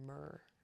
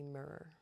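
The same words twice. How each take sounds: First: The word is pronounced in a relaxed, natural way. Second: The word is pronounced carefully and clearly.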